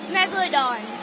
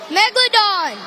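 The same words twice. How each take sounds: First: It is said quietly. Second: It is said loudly.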